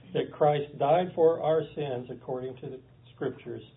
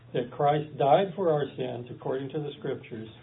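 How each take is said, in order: The two takes are said the same way.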